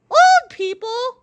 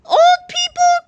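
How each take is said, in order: First: High, slow, loud whine; whining old man. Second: Put-on high, loud, offended old-man cry; outraged old man. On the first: Old George whines the same words again, slow high whine. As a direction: drag it out like a complaining grandpa. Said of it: "whined old George". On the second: Old George insulted by the kids, loud cranky cry. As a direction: howl it like an insulted grandpa. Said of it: "cried old George". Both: A narrator's reading.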